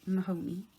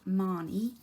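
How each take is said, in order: First: The name is said the American way. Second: The name is said the Irish way. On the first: "she's in America and I know she may say it as Mahoney" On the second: "I would call her Marnie"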